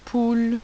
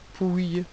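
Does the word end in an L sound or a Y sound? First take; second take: L sound; Y sound. First: The word ends with an L sound. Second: The word ends with a Y sound. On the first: The speaker calls it right. "c'est le mot poule" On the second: The speaker calls it wrong. "On ne dit pas pouille"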